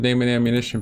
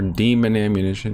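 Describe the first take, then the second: First: The first vowel sounds like 'day'. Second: The first vowel sounds like 'dee'. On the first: "I've always pronounced it Damon" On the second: "Some people pronounce it Demon"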